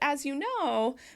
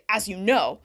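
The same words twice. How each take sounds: First: It is said in a friendly tone. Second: It is said in an angry tone. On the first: "that's a little more friendly" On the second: "it's really angry"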